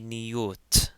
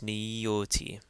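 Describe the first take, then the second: First: The word ends on a bare T sound. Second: The word ends with a vowel after T. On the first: The speaker calls it wrong. "We don't say niyot" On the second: The speaker calls it right. "It is actually pronounced T, so it's niyoti"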